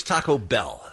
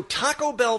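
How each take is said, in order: First: Taco Bell with BELL punched; stress on BELL. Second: Taco Bell with TACO pushed up; stress on TACO. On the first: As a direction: lean on the last word, Bell. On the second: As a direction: lean on Taco, let Bell fall. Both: Shown as a demonstration. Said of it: "taco or bell?".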